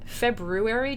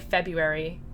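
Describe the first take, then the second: First: The first R is clearly sounded in the word. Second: The first R is dropped from the word. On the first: "Sometimes February just comes out. That's how it's spelled" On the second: "I generally say February without the R"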